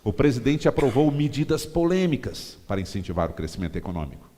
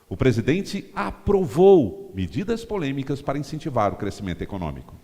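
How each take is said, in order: First: The words "medidas polêmicas" are stressed. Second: The word "aprovou" is stressed. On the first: It appeals to opponents of the president. "você dá ênfase nas medidas polêmicas" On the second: It appeals to people awaiting the approval. "Você dá ênfase no aprovou"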